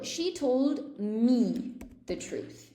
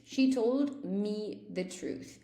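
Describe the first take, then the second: First: Slowly, each word laid out; slow model sentence. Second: Said in the usual way. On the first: Shown as a demonstration. Teacher slowly modelling an example for students. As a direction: read it out slow for the learners. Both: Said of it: "so, for example".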